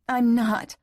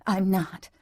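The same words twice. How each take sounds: First: High, forceful repeated denial; insistent denial. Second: Restrained first denial; tense denial. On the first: Woman repeats denial to her lover, insistent. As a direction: push the denial higher, more desperate. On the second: Woman repeats denial to her lover, tense. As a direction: deny it, holding back. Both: A narrator's reading. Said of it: "as she repeated".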